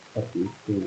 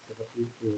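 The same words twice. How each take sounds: Both takes have the same delivery.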